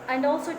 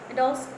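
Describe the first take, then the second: The two takes are said the same way.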